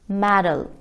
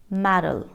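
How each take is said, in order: The two takes are said the same way.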